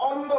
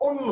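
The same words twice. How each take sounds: First: "অন্ন" with open ɔ at the start, "ɔnno"; open vowel demo. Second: "অন্য" as "onno", with a rounded o; closed o demo. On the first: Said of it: "উচ্চারণটা কিন্তু অন্ন না". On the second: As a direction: close the first vowel of "অন্য" to o. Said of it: "এই বানানের উচ্চারণ হচ্ছে". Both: Shown as a demonstration.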